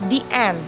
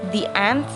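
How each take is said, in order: The two takes are said the same way.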